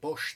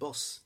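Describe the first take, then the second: First: The word ends with an 'sh' sound. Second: The word ends with an 's' sound. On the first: The speaker calls it wrong. "they don't say Bosch" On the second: The speaker calls it right. "they say Boss"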